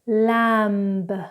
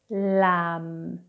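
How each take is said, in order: First: The final b sound is pronounced. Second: The final b sound is silent. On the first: The speaker calls it wrong. "incorrectly first" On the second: The speaker calls it right. "then correctly"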